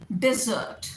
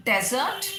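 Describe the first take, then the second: First: डिजर्ट as di-ZURT, short first vowel, long second; the sweet dessert. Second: डेजर्ट as DEZ-ert, stress first; the sandy desert. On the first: Teacher contrasts two common words, डिजर्ट as di-ZURT. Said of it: "syllable किस पे stress करेंगे". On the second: Teacher contrasts two common words, डेजर्ट as DEZ-ert. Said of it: "डेजर्ट आपका रेगिस्तान". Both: Shown as a demonstration.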